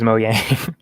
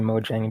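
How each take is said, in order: First: The middle consonant is a Y sound. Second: The middle consonant is an English J sound. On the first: The speaker calls it right. "you're right. It is Mojang" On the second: The speaker calls it wrong. "I just always say Mojang because it has a J"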